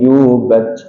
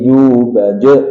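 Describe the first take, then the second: First: The final echo is weak and barely heard. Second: The final echo is drawn out and exaggerated.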